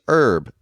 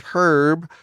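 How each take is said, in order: First: The initial H is silent. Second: The initial H is pronounced. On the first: It is the plant. "Since when is the H silent?" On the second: It is the man's name. "H E R B Herb"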